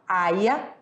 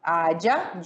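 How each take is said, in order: First: The y is pronounced like an i sound. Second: The y is pronounced like a j sound. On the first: "ou com som de I" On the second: "esse Y com som de J"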